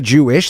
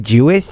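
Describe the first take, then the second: First: The word is said plainly, without a lisp. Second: The word is said with a lisp. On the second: "they have this weird lisp"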